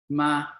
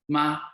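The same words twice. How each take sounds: First: The pitch stays level and flat. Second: The pitch stays level and flat.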